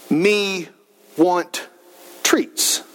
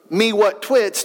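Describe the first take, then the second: First: "me ... want ... treats", slowly, word by word with a clear r in "treats"; clearer pronunciation. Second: "me what twits", with w in place of r in "twits"; toddler mispronunciation. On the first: Father shows his son's improved speech, careful separated "me want treats". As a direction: enunciate "me want treats" with pauses between words. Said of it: "as he develops the ability to speak". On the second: Father shows how his son used to speak, toddler-style "me what twits". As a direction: say "me what twits" in baby talk, run together. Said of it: "it goes from".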